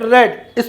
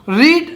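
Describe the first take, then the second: First: The vowel is a short 'e' sound. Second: The vowel is a long 'ee' sound. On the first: It is the past form. "रेड third form है" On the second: It is the present form. "Pronunciation बदल जाता है"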